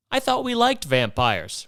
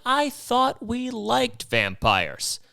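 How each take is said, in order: First: Higher, slowed mock-innocent repeat; teasing the ladies, drawn out. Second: Much higher, slow, mock-innocent; playing dumb, drawn out; feigned confusion, high and slow. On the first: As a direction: lay the irony on. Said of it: "repeats the line". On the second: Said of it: "And I'm like".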